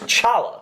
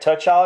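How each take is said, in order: First: The name begins with a CH sound. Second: The name begins with a T sound. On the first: The speaker calls it right. "without the T" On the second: The speaker calls it wrong. "you don't pronounce the T"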